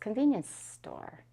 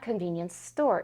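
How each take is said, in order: First: The stress is on the word convenience. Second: The stress is on the word store. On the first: The speaker calls it right. "you don't stress the noun that was modified" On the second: The speaker calls it wrong.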